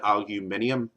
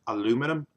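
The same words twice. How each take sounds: First: "aluminium" said the UK way, al-yu-MIN-i-um; UK pronunciation. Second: "aluminum" said the US way, a-LOO-mi-num; US pronunciation. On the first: Explaining the UK spelling to viewers, "aluminium" as al-yu-MIN-i-um. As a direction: say "aluminium" in five syllables, stress on MIN. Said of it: "the correct way to pronounce it". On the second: Explaining the US spelling to viewers, "aluminum" as a-LOO-mi-num. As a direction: say "aluminum" in four syllables, stress on LOO. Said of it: "it's actually spelled aluminum". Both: Shown as a demonstration.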